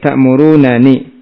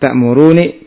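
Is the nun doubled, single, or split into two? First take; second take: split; single. First: Two separate n sounds with a vowel between. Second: A single short n sound is heard. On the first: The two nuns are kept apart. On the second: One of the two nuns is dropped.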